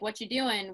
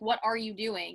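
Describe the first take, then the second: First: It is said in a Pittsburgh accent. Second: It is said in a formal standard accent. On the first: "a lot of my like Pittsburghese came out" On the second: "talked really formal"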